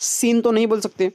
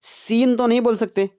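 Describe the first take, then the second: No difference in how they are said.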